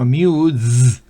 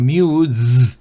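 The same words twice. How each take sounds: First: The u vowel is long. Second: The u vowel is long.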